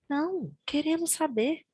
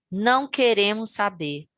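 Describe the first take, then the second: First: There is a pause after the first word. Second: There is no pause after the first word. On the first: They do want to know. "A vírgula muda uma opinião" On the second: They do not want to know. "A vírgula muda uma opinião"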